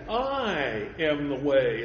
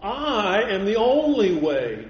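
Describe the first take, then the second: First: Slow, with the weight on I in I am the way; emphatic I. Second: Only punched, louder and slow in I am the only way; stress on only. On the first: Preacher to congregation, stressing I in I am the way. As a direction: lean on I, unhurried. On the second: Preacher to congregation, hammering only in I am the only way. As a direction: drive home the word only. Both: Shown as a demonstration. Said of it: "Someone has said that is emphatic".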